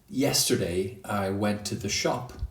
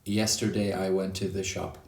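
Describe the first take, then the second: First: Some words are stressed more than others. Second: Every word gets the same equal stress. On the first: The speaker calls it right. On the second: The speaker calls it wrong.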